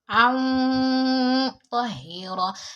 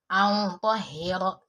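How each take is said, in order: First: The nasal sound is held long before 'ta'. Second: The nasal sound is short before 'ta'. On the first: The speaker calls it right. "I was applying gunna to the N" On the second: The speaker calls it wrong. "I did not prolong the pronunciation"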